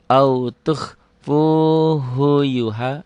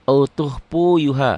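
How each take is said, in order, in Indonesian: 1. Suku kata 'hu' setelah 'tukhfu' diucapkan dengan jelas. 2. Suku kata 'hu' setelah 'tukhfu' dihilangkan. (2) "banyak orang yang bacanya khu-nya ketinggalan"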